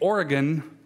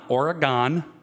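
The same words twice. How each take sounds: First: It is said the local Northwest way. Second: It is said the non-local outsider way. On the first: The speaker is a native of the Northwest. "notice I say Oregon" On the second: The speaker is not from the Northwest. "not Oregon"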